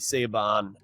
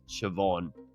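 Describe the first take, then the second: First: The name is sounded out from its spelling. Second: The name gets its usual, non-spelled-out pronunciation. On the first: The speaker calls it wrong. "I was pronouncing it phonetically" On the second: The speaker calls it right. "I think it's pronounced Siobhan"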